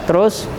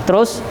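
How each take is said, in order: The two takes are said the same way.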